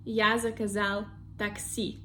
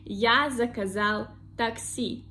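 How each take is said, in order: No difference in how they are said.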